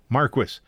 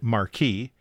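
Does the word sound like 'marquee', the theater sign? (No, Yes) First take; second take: No; Yes. First: It does not sound like marquee. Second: It sounds like marquee, the theater sign. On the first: "it typed M-A-R-Q-U-I-S when I said Marquis" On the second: "the theater sign, M-A-R-Q-U-E-E, when I said Marquee"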